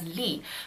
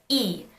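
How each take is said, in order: First: The name is said with an initial L sound. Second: The name is said without an initial L sound. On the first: This is the North Korean pronunciation. "in North Korea, the surname Lee is actually pronounced as Lee" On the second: This is the South Korean pronunciation. "the surname Lee becomes pronounced as E in Korean"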